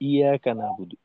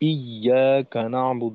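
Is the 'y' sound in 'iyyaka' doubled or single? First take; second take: single; doubled. First: The 'y' sound is short and single. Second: The 'y' sound is held and doubled. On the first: The speaker calls it wrong. "যদি শুধু বলি এভাবে" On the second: The speaker calls it right. "এখানে ইয়াতে তাসদিদ"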